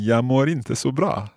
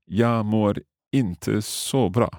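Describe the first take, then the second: First: Quicker, lighter take of "Jag mår inte så bra" with the Swedish lilt; copying the teacher's quick "Jag mår inte så bra". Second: "Jag mår inte så bra" spelled out slowly, word by word; learner's slow careful "Jag mår inte så bra"; slow careful first try. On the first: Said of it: "I'll try saying that quickly like you". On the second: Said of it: "Okay, so". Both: Shown as a demonstration.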